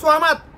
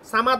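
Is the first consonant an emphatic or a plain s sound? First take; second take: emphatic; plain. First: It begins with a heavy, emphatic s sound. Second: It begins with a plain, light s sound. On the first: The word means dependent on no one. The speaker calls it right. "তবে এখানে উচ্চারণ হবে সোয়ামাদ" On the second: The word means dependent on others. The speaker calls it wrong. "সামাদ না"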